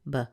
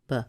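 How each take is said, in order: First: The syllable has a reduced schwa vowel. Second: The syllable has a reduced schwa vowel.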